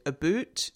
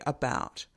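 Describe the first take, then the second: First: "about" as Scottish "a boot"; Scottish accent. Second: Said in the usual way. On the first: Shown as a demonstration. Lecturer showing Stephen's vowel to students, Scottish accent. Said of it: "Stephen there with a Scottish accent". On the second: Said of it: "whereas I would say".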